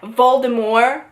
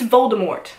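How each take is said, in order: First: The name is said with a French pronunciation. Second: The name is said the usual English way. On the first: This is how it was said in the production. The speaker calls it wrong. "pronounce it in the French way" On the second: This is the established pronunciation. The speaker calls it right. "It's always been pronounced Voldemort"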